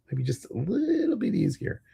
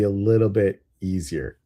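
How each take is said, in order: First: "little" squeezed high and long, then drop back; stretched LITTLE. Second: Said in the usual way. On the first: Real, not acted. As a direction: lift "little" way up and hold it. Repeats the phrase, stretching little.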